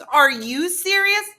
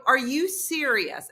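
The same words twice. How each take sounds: First: Slow, high, loud comeback; exasperated. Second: Slow, higher retold challenge; incredulous. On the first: Retold or imitated. Partner firing her question back, exasperated. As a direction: throw it back louder, imitating his disbelief. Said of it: "his exasperation". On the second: Woman challenging her partner in the foyer, incredulous. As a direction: draw out the disbelieving question.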